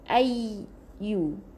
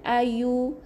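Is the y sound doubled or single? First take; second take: doubled; single. First: The y sound is held and doubled. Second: The y sound is short and single. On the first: The speaker calls it right. "Kena double eh" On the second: The speaker calls it wrong. "bukan ayu"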